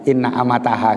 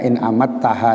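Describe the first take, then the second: First: The first word is a longer 'inna'. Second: The first word is a short 'in'. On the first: The speaker calls it wrong. "bukan inna amataha" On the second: The speaker calls it right. "Jadi bacaannya in amattaha ya"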